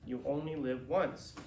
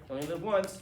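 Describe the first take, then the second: First: Slow, weighty "You only live once"; earnest, slow. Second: Breezy throwaway yolo; flippant slogan. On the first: Shown as a demonstration. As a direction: land each word of "You only live once" seriously. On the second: Retold or imitated. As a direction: toss it off as an excuse. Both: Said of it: "Here's the thing".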